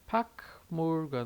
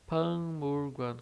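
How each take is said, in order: First: A dry k sound comes before the m. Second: A nasal ng sound comes before the m. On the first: The speaker calls it wrong. "Se a gente lesse ela bem separadinha, sílaba por sílaba... Vejam que tem o som de K aqui seco" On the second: The speaker calls it right. "na prática, no dia a dia... Com som de N G, esse som nasal"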